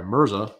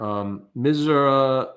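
First: Mirza said right, r before z, falling and careful; carefully fix it to Mirza; Mirza, MUR-za, apologetic correction; corrected name. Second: Mizra, slow, with z before r, mispronounced; wrong name. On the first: Shown as a demonstration. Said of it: "I'm so sorry". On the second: Real, not acted. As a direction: drag out Mizra, the wrong way round. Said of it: "I keep saying Mizra".

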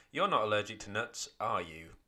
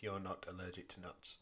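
First: Full question ending on the tag are you; teacher reads the question for pupils, stressing the tag; question tag read aloud. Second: Teacher reads the statement part alone, softer and flat; plain statement. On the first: Read as a question with the tag. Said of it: "The bit that makes it the question is this bit here". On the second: Quieter statement without the tag. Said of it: "the first bit of the sentence is just a statement". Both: Shown as a demonstration.

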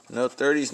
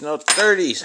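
First: Said in the usual way. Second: Higher and louder, fed up; exasperated louder repeat; frustrated outburst. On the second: Real, not acted. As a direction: blurt it out in frustration at the ticket. Frustrated at losing numbers.

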